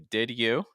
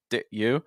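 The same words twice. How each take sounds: First: The d is released clearly before you. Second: The d is held without release before you. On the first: "with a firm D sound" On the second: "with kind of a held sound"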